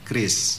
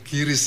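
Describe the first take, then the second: First: It is said as one syllable, kris. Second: It is said as two syllables, ki-ris. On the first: The speaker calls it right. "dibacanya sudah standar kris" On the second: The speaker calls it wrong. "yang sering bilang-bilang kiris"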